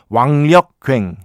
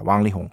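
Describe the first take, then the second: First: The name uses Korean readings of the characters. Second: The name uses Mandarin Chinese pronunciation. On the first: "한국식 중국 한자 발음으로 해주셨죠" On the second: "중국어 발음으로는요 [name]입니다"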